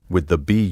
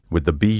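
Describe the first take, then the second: The two takes are said the same way.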